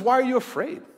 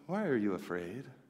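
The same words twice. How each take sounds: First: It sounds like a real question wanting an answer. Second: It sounds like a rhetorical, offhand remark.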